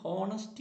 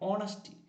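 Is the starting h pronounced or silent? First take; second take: pronounced; silent. First: The word begins with an audible h sound. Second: The word begins with a vowel, no h. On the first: The speaker calls it wrong. "പലരും ഹോണസ്റ്റി എന്ന് പറയുന്നുണ്ട്" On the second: The speaker calls it right. "എച്ച് silent ആണ്"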